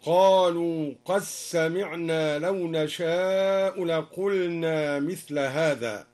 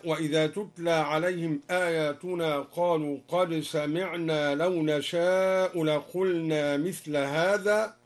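First: "قد سمعنا" as qas-sami'na, slow recitation; dal merged into sin. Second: Said in the usual way. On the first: Shown as a demonstration. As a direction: recite "قد سمعنا" with no d, just a doubled s. (إدغام الدال في السين في "قد سمعنا") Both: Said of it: "أدغم الدوري أيضًا الدال في السين".

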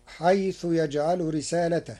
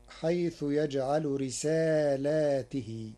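First: رسالته singular with ta in a; رسالته read as risalatahu; reading of Hafs. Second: رسالاته with long alif after lam and ta in i; رسالاته read as risalatihi; Warsh reading. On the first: (رسالته بلا ألف بعد اللام) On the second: (رسالاته بألف بعد اللام وجر التاء) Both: Shown as a demonstration. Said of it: "بإثبات ألف بعد اللام وجر التاء".

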